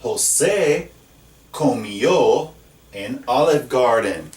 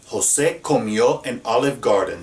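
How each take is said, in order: First: José comió said slowly and clearly; slow, careful José comió; slow model sentence. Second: Said in the usual way. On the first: Shown as a demonstration. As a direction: read the example sentence slowly. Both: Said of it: "Look at this next one".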